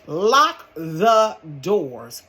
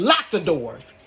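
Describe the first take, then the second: First: Very slow, drawn out command; slow emphatic order. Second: Said in the usual way. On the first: Retold or imitated. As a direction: spell it out firmly. Repeated order, slowed.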